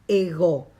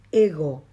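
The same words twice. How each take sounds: First: Ego louder with the last syllable pushed; stress on the omega. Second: Ego said slowly as in Spanish; wrong stress. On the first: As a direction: hit the o of ego hard. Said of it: "con acento en la omega". (ego con acento en la omega) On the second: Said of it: "ego, no ego". (ego lento, a la española) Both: Shown as a demonstration.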